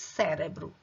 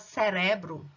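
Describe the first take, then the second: First: The stress is on the first syllable. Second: The stress is on the second syllable. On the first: This is the Portuguese pronunciation. "em português é a primeira sílaba" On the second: This is the Spanish pronunciation. "em espanhol é a segunda"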